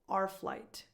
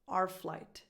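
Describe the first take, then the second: First: 'Our' is reduced to just an R sound. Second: 'Our' is reduced to just an R sound.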